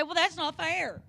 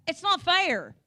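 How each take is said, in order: First: Put-on whiny kid. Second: Put-on higher, louder childish whine; whiny kid. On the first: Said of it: "looked at your mom or your dad and said". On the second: Kids complaining to their parents, mock whine. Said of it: "kids looked at you and said".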